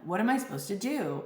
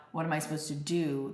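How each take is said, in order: First: A hint of a lost listener asking, quicker; lightly voiced asker. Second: Said in the usual way. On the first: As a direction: toss off the listeners' question, slightly raised. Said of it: "I would get this question". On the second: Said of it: "the really crucial question was not".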